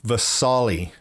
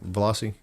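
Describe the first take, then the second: First: The name is said like 'Vasali'. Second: The name is said like 'Veloci'. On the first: The speaker calls it right. "Vasali is the name of them" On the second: The speaker calls it wrong. "I've been saying it wrong the whole time"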